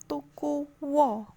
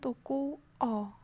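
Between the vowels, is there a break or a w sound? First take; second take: w sound; break. First: A w sound links the two vowels. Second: The two vowels are split without w. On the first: The speaker calls it right. "anggenipun ngucap tukuwa" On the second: The speaker calls it wrong. "boten tuku a"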